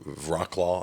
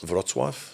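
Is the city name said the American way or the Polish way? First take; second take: American; Polish. First: The name is said with American English pronunciation. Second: The name is said with Polish pronunciation.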